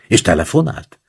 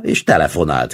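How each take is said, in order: First: Rising question on "telefonált"; eager question. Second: "telefonált" as a falling exclamation; exclaimed confirmation. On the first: Friend jumps up to ask about the phone call, eager question. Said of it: "kérdeztem, és felugrottam". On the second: Veszeli confirms the phone call, mild exclamation. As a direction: call out "telefonált" as a triumphant statement, mildly raised. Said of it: "kiáltotta Veszeli". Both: A narrator's reading.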